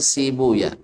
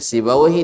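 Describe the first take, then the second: First: The name ends with the sounds 'uya'. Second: The name ends with the sounds 'awaihi'. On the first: This is the hadith scholars' reading. "orang hadis biasanya Sibuya" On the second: This is the grammarians' reading. "seperti Sibawaihi"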